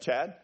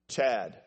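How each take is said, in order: First: The name is said casually, without urgency. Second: The name is said firmly, demanding attention.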